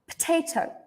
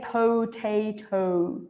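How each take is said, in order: First: The first syllable is reduced to a quick p. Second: The first syllable has a full, clear vowel. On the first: The speaker calls it right. "This first part here is just p" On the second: The speaker calls it wrong. "we don't say potato"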